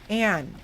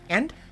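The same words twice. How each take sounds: First: The vowel is drawn out and lengthened. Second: The vowel is short and abrupt.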